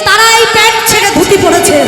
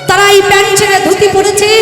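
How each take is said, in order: No difference in how they are said.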